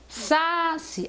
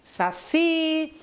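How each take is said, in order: First: The stress is on the first syllable. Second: The stress is on the last syllable. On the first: The speaker calls it wrong. "eu não falo saci" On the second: The speaker calls it right. "quando eu falo saci ... O I é a tônica"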